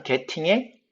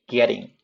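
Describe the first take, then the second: First: 'getting' with a clear hard t; t fully sounded. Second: 'getting' with the t tapped like r, ge-ring; flapped getting. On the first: Teacher citing the word before fixing it, hard t in 'getting'. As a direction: say 'getting' as ge-ting, Korean style. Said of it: "그 다음에 getting에 getting". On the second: Teacher modelling it for students, tapped t in 'getting'. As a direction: soften the middle of 'getting' to a flap. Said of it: "자, kept에서 트 사운드가". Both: Shown as a demonstration.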